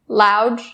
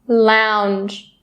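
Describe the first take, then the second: First: The n sound before the final g is dropped. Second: The n sound before the final g is clear. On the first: The speaker calls it wrong. "Do not skip it or drop it. Don't say lounge, lounge, not correct" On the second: The speaker calls it right. "making sure that that n sound is really clear"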